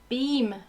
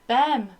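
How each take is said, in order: First: The name has a long vowel, like 'seem'. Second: The name has a short vowel, like 'them'. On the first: This is how the owner of the name says it. The speaker calls it right. "but apparently it's Beam" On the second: This is how the speaker used to say it. The speaker calls it wrong. "I always said Bem"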